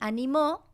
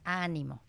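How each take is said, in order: First: The stress is on the last syllable. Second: The stress is on the first syllable. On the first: It is a past-tense verb. "tiene el acento, este sí escrito, en la última sílaba" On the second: It is a noun meaning encouragement. "ese ánimo lleva el acento en la primera sílaba"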